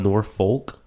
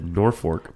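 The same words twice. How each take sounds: First: The second syllable sounds like 'folk'. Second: The second syllable sounds like 'fork'. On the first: This is how the name is written. "It's spelled Norfolk" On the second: This is how locals say the name. "Everyone there pronounces it Norfolk"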